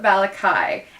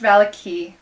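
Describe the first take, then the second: First: The name ends with a 'kai' sound. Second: The name ends with a 'kee' sound. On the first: This is the speaker's own habitual way of saying it. The speaker calls it wrong. "I call it Valakai" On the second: This is the official way to say the name. The speaker calls it right. "I know it's pronounced Valaki"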